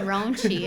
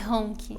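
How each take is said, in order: First: The consonant after the n is a tch sound. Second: The consonant after the n is a k sound. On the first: This is how Americans said the name. "o C H no inglês tem esse som de tch" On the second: This is the name as she says it herself. "É Ronk"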